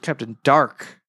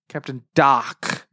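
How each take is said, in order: First: Dark is said with a clear English r. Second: Dark is said with no r, like doc.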